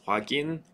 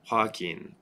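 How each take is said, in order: First: The middle consonant is a voiced G sound. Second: The middle consonant is an unvoiced K sound. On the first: The speaker calls it right. "a G sound instead of a K sound" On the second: The speaker calls it wrong. "what we don't want is"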